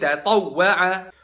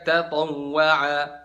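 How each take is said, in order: First: The doubled w gets a clear stressed push. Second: The doubled w gets no stressed push. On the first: The speaker calls it right. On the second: The speaker calls it wrong.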